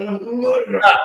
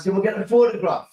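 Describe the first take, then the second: First: "photograph" repeated higher and louder in disbelief; a stunned "A photograph?"; incredulous echo. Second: Said in the usual way. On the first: Retold or imitated. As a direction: throw the word "photograph" back, astonished. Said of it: "I went". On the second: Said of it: "she goes".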